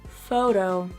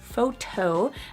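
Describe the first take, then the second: First: The middle consonant sounds like a D. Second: The middle consonant is a clear T. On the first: The speaker calls it right. "we make a T into a D when it is between two vowels" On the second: The speaker calls it wrong. "I don't say photo"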